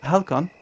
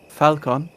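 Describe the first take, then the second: First: "Halcon" with an h sound; corrected name. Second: "Falcon" with an f sound; wrong name. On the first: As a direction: say "Halcon" starting with h. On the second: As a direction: say "Falcon" starting with f. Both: Acted. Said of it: "Halcon, not Falcon".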